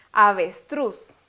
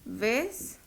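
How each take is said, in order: First: "Avestruz" slowly joined, weight on final "truz"; stress on last syllable. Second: "Avestruz" softly split into three syllables, long gaps. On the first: Teacher shows the tonic syllable, "Avestruz" stressed on "truz". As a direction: say "Avestruz" whole, drawn out, landing on "truz". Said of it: "Lleva la sílaba tónica de último". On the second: Teacher separates the word for students, "Avestruz" syllable by syllable. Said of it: "Separémosla". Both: Shown as a demonstration.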